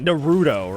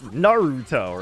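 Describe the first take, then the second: First: The accent is not on the first syllable. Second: The pitch falls after the first syllable. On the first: This is how the English dub says it. The speaker calls it wrong. "They pronounce it Naruto, right? That's not correct" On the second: This is how it is said in Japanese. The speaker calls it right. "It's Naruto, right?"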